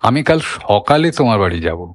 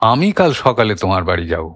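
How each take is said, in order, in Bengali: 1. ঝোঁক পড়ে সকালে শব্দটিতে। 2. ঝোঁক পড়ে আমি শব্দটিতে। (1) "ঝোঁকটা আর একটু সরিয়ে দেয়া হয়" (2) "অন্য কেউ যাবে না, আমিই যাব"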